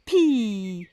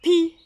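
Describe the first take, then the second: First: "Pi" with a long held i, falling; "Pi" drawn out slowly; final sound stretched. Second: "pi" short, high and loud; "pi" higher and louder, not stretched; syllable isolated. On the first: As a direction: stretch the vowel of "Pi" so children hear it. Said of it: "écoutez bien". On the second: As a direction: pick out "pi" crisply on its own. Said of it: "On entend la syllabe". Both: Shown as a demonstration.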